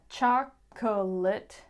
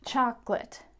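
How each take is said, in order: First: It is said with three syllables. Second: It is said with two syllables. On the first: "maybe you think it's a three-syllable word" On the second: "turns into a two-syllable word"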